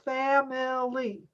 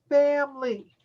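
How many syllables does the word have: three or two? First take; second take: three; two. First: The word is said with three syllables. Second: The word is said with two syllables. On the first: The speaker calls it wrong. "It looks like it has three syllables" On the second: The speaker calls it right. "but the way we pronounce it is two syllables"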